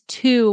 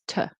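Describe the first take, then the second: First: The word has a full, clear vowel. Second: The word has a weak, reduced vowel. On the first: The word stands alone. "it's to when it's alone" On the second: The word is in connected speech. "in connected speech, it's to"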